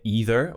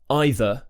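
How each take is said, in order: First: The first vowel is a long 'ee'. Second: The first vowel is the diphthong 'eye'. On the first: "in an American accent, you're going to hear either" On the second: "we say either"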